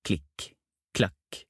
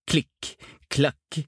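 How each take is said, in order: First: Soft, clipped footstep sounds; distant footsteps. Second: Higher, more forceful footstep sounds; approaching footsteps. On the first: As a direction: sound out steps still far away, softly. Footsteps heard before coming nearer. (lave fottrinn på avstand) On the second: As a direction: sound out the steps coming closer, pitched up. Footsteps coming nearer. (fottrinn som nærmer seg, lysere og tydeligere) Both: A narrator's reading.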